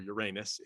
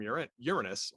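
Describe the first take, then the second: First: The name is said the crass, joking way. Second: The name is said the polite, usual way.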